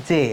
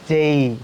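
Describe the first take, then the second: First: "যে" with a plain e, no glide; common mispronounced J. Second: "যেই" long, gliding from e to i; correct English J. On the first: Teacher mimicking the usual mistake, glideless "যে". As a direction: end "যে" on a pure e vowel. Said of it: "এটা যে না, এটা হবে যেই". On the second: Teacher giving the correct J, drawn-out gliding "যেই". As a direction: stretch "যেই" loosely into an i ending. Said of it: "এটার প্রোনাউন্স হবে". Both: Shown as a demonstration.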